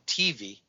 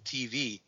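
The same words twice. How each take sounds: First: The stress is on the first syllable. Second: The stress is on the second syllable.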